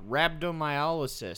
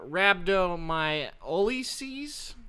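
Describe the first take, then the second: First: It is said in a normal, plain voice. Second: It is said in a put-on dumb voice. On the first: "I think you probably said it right" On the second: "Let me see what I can do dumb"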